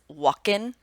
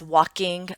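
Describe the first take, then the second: First: The word ends with a plain 'n' sound. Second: The word ends with a full 'ng' sound. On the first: "or dropping it" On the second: "keeping the G sound"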